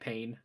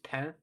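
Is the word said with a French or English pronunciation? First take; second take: English; French. First: It is said with an English pronunciation. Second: It is said with a French pronunciation. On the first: It means hurt. "but it's it looks like pain" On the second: It means bread. "the word for bread is is spelled P A I N. It's pain"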